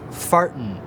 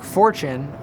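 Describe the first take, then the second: First: The middle consonant is a plain 't' sound. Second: The middle consonant is a 'ch' sound. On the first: This is how it was said in Shakespeare's time. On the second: This is the modern pronunciation.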